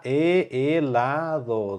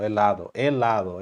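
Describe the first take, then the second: First: Helado drawn out with a soft D. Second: Said in the usual way. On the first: Shown as a demonstration. Teacher to class, helado said slowly with a soft D. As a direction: stretch helado and keep the D soft. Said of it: "D bem suave". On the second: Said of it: "lembra do L".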